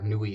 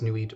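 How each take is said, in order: First: The name is said the French way. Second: The name is said the English way.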